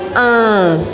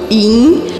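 First: Only a nasal vowel is heard, without an i. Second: A clear i vowel is pronounced before the n. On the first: The speaker calls it right. "só faço o som anasalado sem marcar o i" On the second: The speaker calls it wrong. "eu não falo IN"

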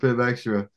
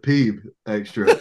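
First: The first word has a short 'i' vowel. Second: The first word has a long 'ee' vowel. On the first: "we asked for pib extra" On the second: "she pronounced it peeb extra"

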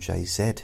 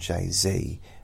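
First: The name is said in a British accent. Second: The name is said in an American accent. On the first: "We call him [name] here" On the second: "in America they call him Jay-Z"

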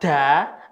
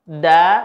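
First: The syllable is released with an audible puff of breath. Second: The syllable is released with no puff of breath. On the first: The speaker calls it wrong. "Kalau dibaca da, ada hamasnya" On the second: The speaker calls it right. "da tanpa ada hamas"

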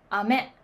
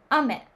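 First: The pitch goes from low to high. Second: The pitch goes from high to low. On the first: This is the Osaka accent. "大阪では雨、低い、高い" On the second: This is the Tokyo accent. "東京では雨、高い、低い。"

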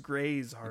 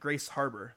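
First: The name is said carefully, with 'Gray's' distinct. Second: The name is said fast, sounding like 'Grace'. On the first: The speaker calls it right. "But it's Gray's Harbor" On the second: The speaker calls it wrong. "if people say it fast, it's like Grace Harbor"

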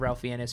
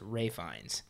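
First: The first name is said like 'Ralph', with an L. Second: The first name is said like 'Rafe', without an L. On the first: The speaker calls it wrong. "I pronounced it Ralph Fiennes for years" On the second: The speaker calls it right. "It's Ray Fiennes"

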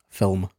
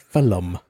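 First: The word is said as one syllable. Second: An extra vowel splits the word into two syllables. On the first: The speaker calls it right. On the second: The speaker calls it wrong.

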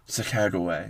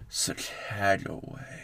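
First: The name is said at an ordinary speed. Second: The name is drawn out slowly. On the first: "I said it again in a more sultry voice" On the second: "One more time, but slower?"

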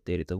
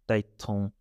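First: The word is said in its full form. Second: The word is said in a shortened form. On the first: "We don't say that" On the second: "We say maiton, taiton"

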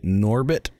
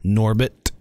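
First: The T has only a light puff of air. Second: The T has a strong puff of air.

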